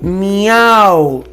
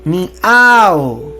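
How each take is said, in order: Both takes have the same delivery.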